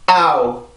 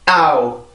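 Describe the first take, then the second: First: The first vowel is stressed, the second fades. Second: The first vowel is stressed, the second fades.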